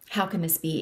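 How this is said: It sounds doubtful and skeptical.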